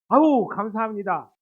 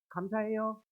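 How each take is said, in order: First: The thanks sounds warm and truly sincere. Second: The thanks sounds cocky and arrogant.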